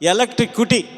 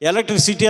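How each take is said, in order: First: The word is said as electric kuti. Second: The word is said as electricity. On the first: The speaker calls it wrong. "ఏమంటున్నాడా? ఎలక్ట్రిక్ కుటీ" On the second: The speaker calls it right. "ఎలక్ట్రిసిటీ అనమంటే"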